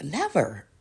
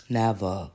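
First: Said in the usual way. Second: Never dropped much lower, slow and final; low emphatic never. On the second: Shown as a demonstration. Denying she owned the trailer, Never said much lower. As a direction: sink the word Never deep and flat. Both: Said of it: "I never owned that motherfucker".

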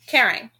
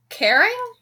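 First: Said in the usual way. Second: "Caring?" asked on a high rising pitch; puzzled question. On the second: Acted. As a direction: echo it back, puzzled and high. Jake puzzled, tilts his head.

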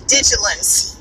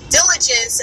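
First: "digilance" with the l and j sounds swapped; mispronounced diligence. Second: Said in the usual way. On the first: Shown as a demonstration. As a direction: stumble diligence into "digilance", j before l. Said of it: "I kept saying digilance". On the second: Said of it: "I was trying to say".

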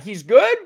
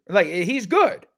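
First: "good?" rising sharply as a question; questioning rise. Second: "good" said as a firm, emphatic statement. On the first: Shown as a demonstration. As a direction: end "He's good?" on a high, doubtful rise. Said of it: "Question mark?". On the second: Real, not acted. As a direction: state "he's good" flatly and firmly, as a fact. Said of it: "That was an emphatic statement".

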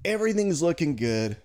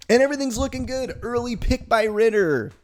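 First: Said in the usual way. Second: Rising excitement, fast and loud; excited. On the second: Real, not acted. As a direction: hype it up like the game is going well. Building excitement about game.

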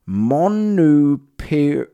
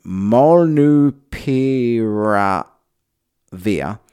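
First: Molnupiravir sounded out slowly, syllable by syllable; Molnupiravir, drawn out carefully like a word never seen; unsure pronunciation. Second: Molnupiravir stretched out very slowly, each syllable spelled out; Molnupiravir, picked through letter by letter; careful pronunciation. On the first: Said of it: "I am assuming that's how he say it". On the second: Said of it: "that word again". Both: Shown as a demonstration.

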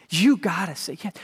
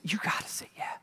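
First: Said in the usual way. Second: Soft breathy urging; hushed earnest whisper; whispered plea. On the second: Real, not acted. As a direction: whisper the invitation. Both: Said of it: "I'm just gonna say".

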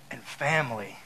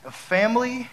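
First: "family" falling low and softer; closing drop on "family". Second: "family" rising high at the end; questioning lift on "family". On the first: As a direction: drop your pitch on "family" to close it. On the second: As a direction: lift your pitch through "family" and leave it hanging. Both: Shown as a demonstration. Contrasts two kinds of family.

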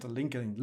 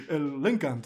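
First: El LinkedIn spelled out fully as "linkedin", normal voice; el LinkedIn with every syllable, unfussed; plain LinkedIn. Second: El LinkedIn squeezed to "linkant", laughing and louder; el LinkedIn said like "el linkant" through a laugh; mock pronunciation. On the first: Shown as a demonstration. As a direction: say LinkedIn the standard way, all syllables. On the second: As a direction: mimic LinkedIn the funny social media way, laughing. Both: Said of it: "es gracioso como dicen".

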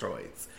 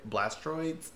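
First: Blastoids, said with no r after the t; Blastoids, said lower and quieter as a correction; corrected Blastoids. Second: Blastroids, with an extra r after the t; Blastroids, said with a stray r and lifted higher; mispronounced Blastoids. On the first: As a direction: carefully say Blastoids, with the t straight into oids. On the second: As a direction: trip over Blastroids, slipping an r in. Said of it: "I can never say that word right". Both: Real, not acted.

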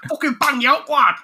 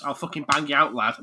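First: High, loud Mancunian threat; Manchester accent. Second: Said in the usual way. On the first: Acted. Game hero to everyone he fights, shouted Manchester accent. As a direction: yell it like a Manchester scrapper. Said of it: "to everyone he fights". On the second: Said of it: "to our international viewers".

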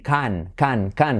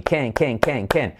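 First: "can" with an open Spanish A, like "kahn"; mispronounced "can". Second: "can" repeated with an E vowel, "Ken". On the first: Teacher mimicking the learner's error, "can" as Spanish "kahn". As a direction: say "can" like the Spanish word for dog. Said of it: "que parece un perro, un can". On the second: Teacher drilling Barbie's boyfriend's name, "can" like "Ken". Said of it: "como el novio de Barbie". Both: Shown as a demonstration.

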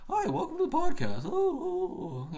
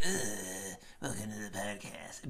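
First: Very high, silly squeaky voice; mock him as a squeaky little podcaster; mocking real-life voice. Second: Mock his affected raspy podcast intro; put-on raspy voice. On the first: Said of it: "in real life, he talks like this". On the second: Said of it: "does this thing with his voice".

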